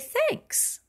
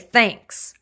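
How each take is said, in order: First: It is said in a sincere tone. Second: It is said in a sarcastic tone. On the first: The speaker is really grateful. "then you do mean it" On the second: The speaker is not really grateful. "if you say it very sarcastically"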